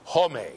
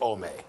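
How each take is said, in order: First: The word begins with a clear h sound. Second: The word begins without any h sound. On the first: The speaker calls it right. "if the word starts with an H, say the H" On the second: The speaker calls it wrong. "Don't say ome"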